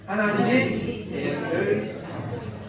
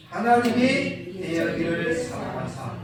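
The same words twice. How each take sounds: First: Chanted in unison, slow; sung, recite it together slowly; sung, congregation recites together. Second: Slower and louder this time; louder repeat. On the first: Pastor leads the church in a slow chant. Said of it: "시작". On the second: Pastor asks them to repeat it louder. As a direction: say it again with more force. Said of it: "다시 한번요". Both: Shown as a demonstration.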